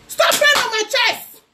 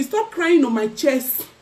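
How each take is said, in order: First: Sudden high, squeezed outcry; high-pitched taunt. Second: Said in the usual way. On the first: Real, not acted. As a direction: throw it out in a high, exasperated voice. Repeating a taunt, escalated outburst.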